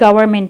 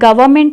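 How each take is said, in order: First: The word is said in an American accent. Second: The word is said in a British accent. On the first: "और American क्या है" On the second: "इसकी जो असल pronunciation है British है"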